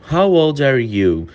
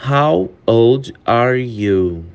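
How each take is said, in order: First: Said in the usual way. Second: Very slow, each word stretched; slow it down for learners; slow model question; slow demo. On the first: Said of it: "slow take just before". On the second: Shown as a demonstration. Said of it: "repeated at normal pace".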